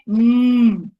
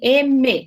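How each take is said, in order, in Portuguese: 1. É um zumbido com os lábios fechados, mmm. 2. É pronunciado como o nome da letra, eme. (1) "A pronúncia do M é M" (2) "o M não é assim"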